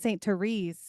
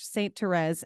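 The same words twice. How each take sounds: First: The name is said with an American pronunciation. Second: The name is said with a French pronunciation. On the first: This is how some people in Los Angeles say it. The speaker calls it wrong. "I have heard people pronounce it Saint Therese here in L A" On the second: This is how the name is supposed to be said. The speaker calls it right. "we have that French influence"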